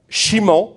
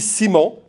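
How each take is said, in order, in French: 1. Le nom commence par un son 'sh'. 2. Le nom commence par un son 's'. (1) "ça se lit soit che" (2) "soit S"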